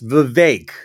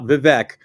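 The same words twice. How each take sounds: First: The second syllable rhymes with fake. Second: The second syllable does not rhyme with fake. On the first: The speaker calls it right. "it's Vivek, as in rhymes with fake" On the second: The speaker calls it wrong. "it's not Vivek"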